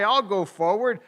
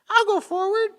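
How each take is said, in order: First: It is said in a normal voice. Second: It is said in a squeaky high voice.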